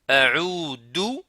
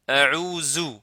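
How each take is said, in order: First: The middle consonant is a plain d sound. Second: The middle consonant is a z sound. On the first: "dou avec la lettre del" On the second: "zou, la lettre za"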